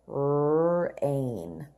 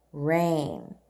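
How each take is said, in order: First: Drawn out slowly, pitched low; slow model read. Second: Said in the usual way. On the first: Shown as a demonstration. Teacher stretching Rain out slowly for the class. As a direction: stretch the word Rain for children to copy. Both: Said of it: "Let's read the words together".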